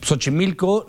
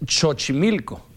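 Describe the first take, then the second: First: Said in the usual way. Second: «Xochimilco» con CH inicial, despacio; X como ch. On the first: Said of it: "la X como S". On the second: Shown as a demonstration. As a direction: start «Xochimilco» with CH as in church. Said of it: "Xochimilco no es Xochimilco". («Xochimilco» dicho «Chochimilco»)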